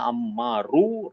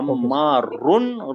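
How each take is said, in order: First: The name ends with a plain -u vowel. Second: The name ends with an -un sound. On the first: The speaker calls it right. "Right है" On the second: The speaker calls it wrong. "Wrong है"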